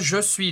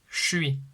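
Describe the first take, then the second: First: Both words are said in full, with the vowel. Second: The vowel of 'je' is dropped, merging the words. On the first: This is the standard form. "normalde je suis diyoruz" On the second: This is the casual spoken form. "ö sesini de düşürürler"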